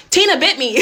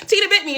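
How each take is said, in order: First: Said in the usual way. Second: Said through a laugh, much higher. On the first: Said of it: "Tina bit me (repeated laughing)". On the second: Real, not acted. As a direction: laugh while you repeat it. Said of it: "Tina bit me (first take)".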